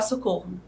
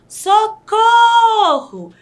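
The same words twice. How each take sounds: First: It is said flatly, without force. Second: It is exclaimed loudly with strong emotion.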